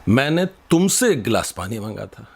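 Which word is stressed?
तुमसे. The word तुमसे carries the strongest stress. I asked you, not someone else. "तो तुमसे मांगा था"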